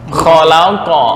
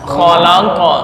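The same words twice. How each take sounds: Both takes have the same delivery.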